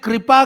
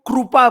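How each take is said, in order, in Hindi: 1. यह मानक हिंदी लहजे में बोला गया है। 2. यह गुजराती लहजे में बोला गया है।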